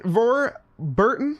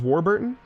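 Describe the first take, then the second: First: The name begins with a V sound. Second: The name begins with a W sound. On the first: The name is treated as German. The speaker calls it wrong. "he's not German" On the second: The name is treated as British. The speaker calls it right. "Is it just Warburton?"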